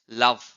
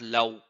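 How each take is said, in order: First: The v sound is made biting the lower lip. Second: The v sound is made with rounded lips. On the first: The speaker calls it right. "biting your lips" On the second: The speaker calls it wrong. "It's not love"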